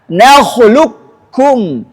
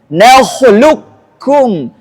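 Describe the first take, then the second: The two takes are said the same way.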